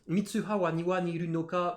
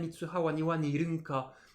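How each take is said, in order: First: The ending is said in full as nirunoka. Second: The ending is shortened to nirunka.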